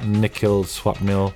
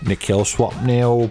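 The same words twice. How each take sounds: First: It is said in the speaker's plain accent. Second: It is said in a put-on British accent.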